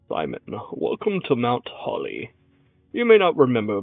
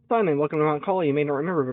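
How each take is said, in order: First: It is read in a put-on old man voice. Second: It is read in his normal voice.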